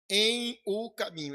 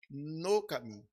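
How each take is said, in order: First: The preposition and article are said as separate words. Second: The preposition and article merge into one syllable. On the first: It imitates the style of a particular church. "Ele gosta muito desse em aí, em o" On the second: It is the usual everyday form. "nós dizemos no"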